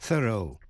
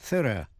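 First: It is said in an American accent. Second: It is said in a British accent. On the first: "đọc theo giọng Mỹ" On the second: "đọc theo giọng Anh"

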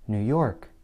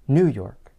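First: The stress falls on the word York. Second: The stress falls on the word New. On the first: The speaker calls it right. "But how does the place name sound when stress is placed on the last word?" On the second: The speaker calls it wrong. "What would happen if the stress were placed on the first word? It might sound something like this"

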